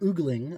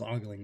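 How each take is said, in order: First: The first vowel is an 'oo' sound. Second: The first vowel is an 'oh' sound. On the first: This is how someone else said it. "is how Taylor pronounced it" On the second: This is how the speaker always thought it was said. "I always thought it was ogling"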